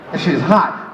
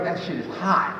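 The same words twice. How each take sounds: First: Said in the usual way. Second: Hushed, lower and softer; soft and breathy. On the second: Shown as a demonstration. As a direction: whisper it like a secret.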